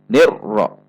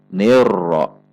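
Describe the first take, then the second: First: The r is cut off with an abrupt jolt. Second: The r is between steady and abrupt. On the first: The speaker calls it wrong. "Atau dibaca dengan terhentak" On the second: The speaker calls it right. "antara terhentak dan tidak terhentak"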